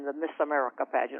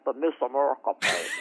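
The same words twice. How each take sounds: First: It is said in a general American accent. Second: It is said in a Southern American accent.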